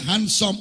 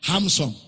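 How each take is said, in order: First: The first part sounds like 'hand'. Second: The first part sounds like 'ham'.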